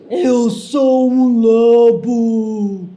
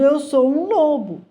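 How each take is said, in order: First: It is shouted in a wolf's voice. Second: It is said in a plain reading voice.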